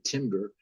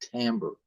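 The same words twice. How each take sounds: First: The word is said the way many people say it. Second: The word is said the way musicians say it. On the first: The speaker calls it wrong. "sometimes people say timbre, but that's not the preferred pronunciation" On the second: The speaker calls it right. "it's pronounced by musicians timbre"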